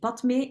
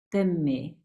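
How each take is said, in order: First: A d sound is heard before the m. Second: No d sound; the m is doubled. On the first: The speaker calls it wrong. "de uitspraak is niet Padme" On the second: The speaker calls it right. "maar Pemme"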